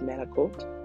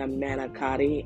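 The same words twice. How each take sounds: First: It is said in a Staten Island Italian-American accent. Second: It is said in a standard American way.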